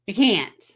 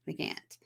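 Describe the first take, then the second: First: Louder, pressed insistence; firm insistence. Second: Breathy whisper, dropping right off; whispered repeat. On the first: Counselor insisting to a couple over a text breakup, firm louder insistence. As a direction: put your foot down on it. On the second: Counselor repeating her point to the couple, soft whisper. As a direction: echo it to yourself in a whisper. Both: Retold or imitated.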